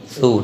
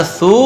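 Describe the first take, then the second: First: Said in the usual way. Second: सू with the vowel drawn out; wrong, stretched reading. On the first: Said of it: "बल्कि". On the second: Shown as a demonstration. Teacher showing what not to read, सू stretched. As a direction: hold सू too long. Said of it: "नहीं पढ़ना है".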